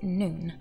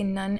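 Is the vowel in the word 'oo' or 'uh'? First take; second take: oo; uh. First: The vowel is a long 'oo' sound. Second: The vowel is a short 'uh' sound. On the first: This is the proper Hebrew pronunciation. The speaker calls it right. "technically you're supposed to pronounce it noon" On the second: This is how an English speaker says it. The speaker calls it wrong. "I say nun, N-U-N, because English is my first language"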